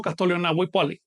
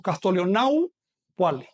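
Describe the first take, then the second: First: "Naupuali" said as nawi-puali, keeping the i of Naui; wrong pronunciation. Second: "Naupuali" said as nau-puali, with the final i of Naui dropped; correct pronunciation. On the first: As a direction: demonstrate the barbarism "Castolion Naupuali" with the i kept. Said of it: "Eso sería un barbarismo". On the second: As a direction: say "Castolion Naupuali" fused, no i after nau. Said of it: "No digo Castolion Naupuali". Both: Shown as a demonstration.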